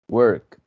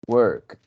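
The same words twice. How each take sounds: Both takes have the same delivery.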